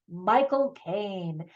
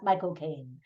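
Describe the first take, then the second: First: Said in the usual way. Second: Low, soft British "my-cocaine"; British accent. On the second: Shown as a demonstration. Reviewer demonstrating how to say the actor's name, British accent. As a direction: run "my" and "cocaine" together, British-style. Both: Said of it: "say it correctly with a British accent".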